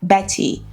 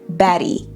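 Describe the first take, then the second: First: The middle T is a full aspirated t. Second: The middle T is a quick d-like flap. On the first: The speaker calls it wrong. "nós não falaríamos Betty" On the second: The speaker calls it right. "Com esse som que nós chamamos de flap T ou fast D"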